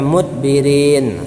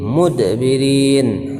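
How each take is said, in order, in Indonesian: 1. Huruf d ditutup datar, tidak ada pantulan. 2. Huruf d dilepas dengan pantulan pendek yang bergema.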